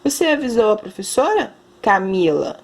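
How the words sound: There is a pause before the name, like a comma.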